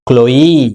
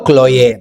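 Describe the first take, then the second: First: The name is pronounced the English way. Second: The name is pronounced the Telugu way. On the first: "ఇంగ్లీష్లో పలకాలంటే క్లోయి అని పలకాలి" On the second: "తెలుగులో క్లోయే"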